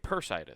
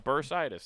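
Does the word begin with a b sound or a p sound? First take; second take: p; b. First: The word begins with a p sound. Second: The word begins with a b sound. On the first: The speaker calls it wrong. "I'm saying Persitis" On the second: The speaker calls it right. "There we go"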